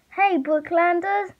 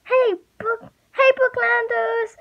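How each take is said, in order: First: High, drawn-out call. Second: Very high, sustained holler; shouting. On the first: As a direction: call slowly across a distance. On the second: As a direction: holler it out at the top of the range. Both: A narrator's reading. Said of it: "she shouted".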